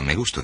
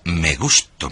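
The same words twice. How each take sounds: First: It is said flatly, without feeling. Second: It is said with strong feeling.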